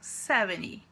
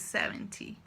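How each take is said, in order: First: The t sound after the n is dropped. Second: The t sound after the n is pronounced. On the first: The speaker calls it right. "você tira o som do T e vai do N direto pro Y" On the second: The speaker calls it wrong. "Em vez de"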